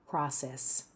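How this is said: The first vowel is open, in American style. "In North American English, it's more like an open R"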